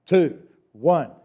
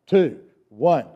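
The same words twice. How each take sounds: The two takes are said the same way.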